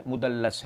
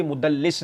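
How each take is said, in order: First: مدلس said "mudallas", softly, with a short a; corrected with a. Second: مدلس said "mudallis", with a short i; mispronounced with i. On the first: Giving the opponent the right form, مدلس said with an a. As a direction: drop the voice and end مدلس on -las. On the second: Rejecting the opponent's form, مدلس said with an i. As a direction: end مدلس on -lis. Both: Shown as a demonstration. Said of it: "یہاں بھی مدلس نہیں ہے".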